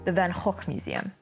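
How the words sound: The name is pronounced the Dutch way.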